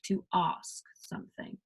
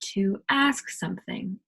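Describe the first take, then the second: First: It is said in a British accent. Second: It is said in the speaker's usual accent.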